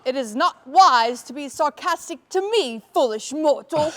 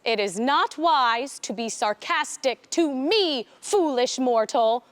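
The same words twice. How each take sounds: First: Lightly menacing villain line; a touch of a scornful dark ruler; dark lord. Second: Slow, lightly menacing villain voice; a hint of a haughty dark ruler; dark lord. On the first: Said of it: "do you think that we could do". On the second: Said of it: "She says". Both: Shown as a demonstration.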